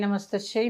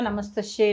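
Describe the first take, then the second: No difference in how they are said.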